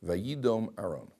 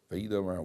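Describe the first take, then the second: First: Slow, deliberate quoting of the verse. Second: Said in the usual way. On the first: Shown as a demonstration. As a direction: lay out each word of the Hebrew slowly. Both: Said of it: "Look at Aaron's reaction over here".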